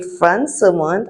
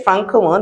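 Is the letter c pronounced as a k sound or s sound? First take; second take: s sound; k sound. First: The c is pronounced as an s sound. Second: The c is pronounced as a k sound. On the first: The speaker calls it right. "we say Francomonde. As you can see, that symbol there means you have to pronounce it as a S" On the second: The speaker calls it wrong. "we don't say Francomonde"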